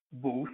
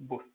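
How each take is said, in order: First: "Booth" with a long oo; correct booth. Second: "booth" with a shortened vowel; mispronounced booth. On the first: Teacher modelling the word for learners, "Booth" with long oo. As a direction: draw out the oo in "Booth". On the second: Teacher warning learners off a mistake, "booth" said short. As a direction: say "booth" short, as the wrong example. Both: Shown as a demonstration. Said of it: "Not booth".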